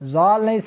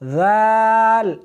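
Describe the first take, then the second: First: The first consonant is said hard and forceful. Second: The first consonant is said soft and gentle. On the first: The speaker calls it wrong. "सख्ती नहीं करनी" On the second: The speaker calls it right. "नरमी के साथ पढ़ना है"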